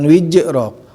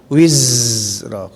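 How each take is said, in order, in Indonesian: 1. Konsonan di tengah itu bunyi j. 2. Konsonan di tengah itu bunyi z lembut. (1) "bukan wijrok" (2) "harus empak karena ujung lidah bertemu dengan gigi sebagian bawahnya"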